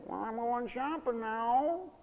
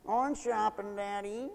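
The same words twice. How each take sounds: First: Soft, slow sing-song whining goodbye; mock whine. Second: Soft whiny singsong to daddy; mock whine. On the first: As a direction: whine it out sweetly to needle them. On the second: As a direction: whine it like a spoiled child. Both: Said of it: "just sort of whine goodbye and say".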